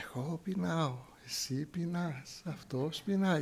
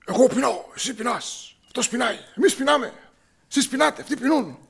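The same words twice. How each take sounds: First: Calm. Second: High, loud, agitated conjugation; higher and louder, all on edge; nervous. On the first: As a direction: say it serenely, as if nothing could ruffle you. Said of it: "είμαστε όλοι ήρεμοι και μιλάμε ήρεμα". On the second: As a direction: rattle the verbs off like a jittery, nervous kid. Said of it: "Όλοι μας στην οικογένεια είμαστε νευρικοί". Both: Retold or imitated.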